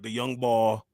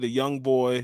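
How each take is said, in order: First: Boy is said sounding like ball. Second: Boy is said with a standard oy vowel. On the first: "Philly cats... they be like the young ball" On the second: "they don't say the young boy"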